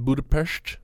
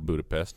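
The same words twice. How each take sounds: First: The word ends with a 'sht' sound. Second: The word ends with a plain 's' sound. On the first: The speaker calls it right. "which is the correct pronunciation" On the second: The speaker calls it wrong. "All these years, been saying it wrong"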